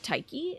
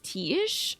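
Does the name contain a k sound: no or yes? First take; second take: yes; no. First: The name is said as tai-kee, with a k. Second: The name is said as tea-ish, with no k. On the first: "I'm pronouncing it like it's a, a Greek name, Taiki" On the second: "You pronounce it as tea-ish?"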